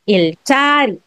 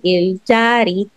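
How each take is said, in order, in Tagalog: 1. Tense ang katinig pagkatapos ng l. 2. Plain ang katinig pagkatapos ng l. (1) "Kailangan yung jiut mo maging sangjiut" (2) "kung babasahin mo lang siya ng ganyan"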